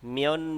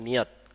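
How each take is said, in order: First: The word ends with an n sound. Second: The word ends with a t sound. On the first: The word is followed by another word. "একসাথে বললে উচ্চারণ হবে মিয়ন মিয়ং" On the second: The word is said on its own. "এটা যদি আপনি সিঙ্গেল বলেন তাহলে এটা হবে মিয়ত"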